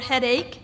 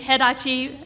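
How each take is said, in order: First: The word ends plainly without an added vowel. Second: The word ends with an added 'ee' vowel. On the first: This is the standard English word. "for headache" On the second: This is how the mother misread the word. "my mom was saying headachi"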